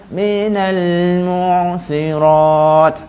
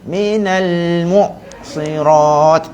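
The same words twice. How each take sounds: First: The ain sound flows on, made only lightly. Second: The ain sound is abruptly cut off. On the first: "ain saya tak putus... saya sebut tu dekat permukaan sahaja" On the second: "sebab saya buat putus"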